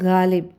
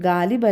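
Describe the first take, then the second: First: The first ga sound is stressed and heavier. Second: The first ga sound is plain, without stress. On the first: The speaker calls it right. "ആ ഒരു ഗായ്ക്കൊരു stress" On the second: The speaker calls it wrong. "ഗാലിബ് അല്ല"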